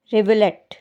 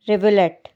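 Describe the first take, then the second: No difference in how they are said.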